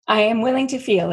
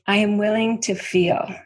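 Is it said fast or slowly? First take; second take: fast; slowly. First: It is said at a quicker pace. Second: It is said slowly and deliberately.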